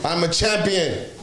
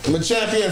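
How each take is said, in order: First: A light mock boast, a bit higher; lightly voiced Giannis claiming the title; a mild pretend champion brag; playing Giannis, first take. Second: Higher, harder second take of the boast; louder champion boast. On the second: Pretend. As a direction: hit champion like a trophy lift. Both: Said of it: "I'm just playing".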